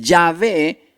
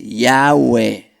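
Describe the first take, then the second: First: The middle consonant is a b or v sound. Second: The middle consonant is a w sound.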